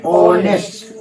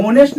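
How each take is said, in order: First: ऑनेस्ट with a silent h, open o start; ऑनेस्ट, no h at all; correct pronunciation. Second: होनेस्ट with the h sounded; होनेस्ट, h clearly voiced; wrong pronunciation. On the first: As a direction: say ऑनेस्ट starting straight on the vowel. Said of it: "ऑनेस्ट होता है". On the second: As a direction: say होनेस्ट with a breathy h in front, the way it is not said. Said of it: "वो होनेस्ट नहीं होता है". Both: Shown as a demonstration.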